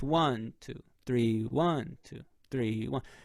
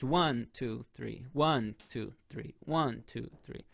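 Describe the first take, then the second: First: One is stressed and three leads onward. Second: All beats are said evenly, without inflection.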